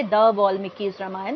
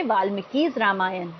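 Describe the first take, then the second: First: "the" before "वाल्मीकि's Ramayan" said with a slight rise, marking it as the wrong form; rising "the" on "the वाल्मीकि's Ramayan", shown as the mistake. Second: Said in the usual way. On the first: Shown as a demonstration. Teacher shows students the incorrect version with "the". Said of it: "ना कि ऐसा बोलोगे". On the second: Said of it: "आप simple ऐसे बोलोगे".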